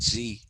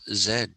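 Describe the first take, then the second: First: The letter is named the American way. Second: The letter is named the Indian way. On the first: The speaker calls it wrong. "you're not Americans. Why are you calling it Z?" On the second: The speaker calls it right. "We are Indians. We have always called this Z"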